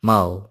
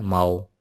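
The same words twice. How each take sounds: First: माओ dropping sharply, said louder; falling tone. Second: माओ held level and even; flat tone. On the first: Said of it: "falling tone के साथ पढ़ेंगे ना". (माओ गिरती tone में) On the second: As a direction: keep माओ flat and steady. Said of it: "flat tone के साथ पढ़ेंगे ना". (माओ सपाट टोन में) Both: Shown as a demonstration.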